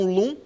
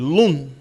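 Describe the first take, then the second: First: Said Portuguese-style, with a nasal final sound. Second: Said Hebrew-style, keeping the final sound clear. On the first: "Ou quiser ler no portuguesão" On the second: "Como se tivesse um ar no final que a gente não come ele"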